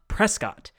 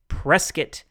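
First: The town name is said the way outsiders say it. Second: The town name is said the way locals say it. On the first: The speaker is not from around these parts. The speaker calls it wrong. "not Prescott. Otherwise, everyone will know that you are not from around these parts" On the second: The speaker is from around these parts. The speaker calls it right. "remember to say Prescott"

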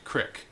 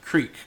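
First: The vowel is a short i sound. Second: The vowel is a long ee sound. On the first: "kind of like mispronunciations" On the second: "Instead of creek"

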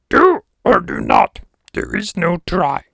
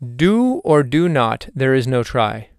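First: It is said in a Yoda impression voice. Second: It is said in his normal voice.

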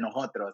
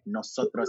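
First: The S sounds are weakened or dropped. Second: The S sounds are clearly and fully pronounced. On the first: This is the speaker's natural way of talking. "I hate pronouncing my S's" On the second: This is a neutral way of talking for other Spanish speakers. "I had to pronounce every single S"

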